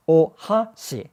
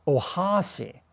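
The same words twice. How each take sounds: First: "ohashi" slowly, each syllable given equal time; even syllable timing. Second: "ohashi" with HA dragged out too long; learner's "ohashi", lingering on the middle syllable; accented syllable overlong. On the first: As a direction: space "ohashi" out as three equal beats. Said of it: "It should be said like that". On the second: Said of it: "say the accented bit for too long". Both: Shown as a demonstration.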